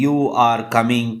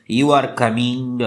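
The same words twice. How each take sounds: First: "You are coming" spoken slowly, with the tune falling on "coming"; statement, fall on coming. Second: "You are coming" asked very slowly as a question, with the pitch rising at the end; question intonation. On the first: Teacher showing students the statement fall. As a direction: slowly drop the pitch on "coming". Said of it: "कमिंग पे जो है ज़्यादा थोड़ा बहुत intonation". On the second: Teacher turning the same statement into a question for students. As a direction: make it a question and let "coming" rise. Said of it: "इसी तरह question". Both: Shown as a demonstration.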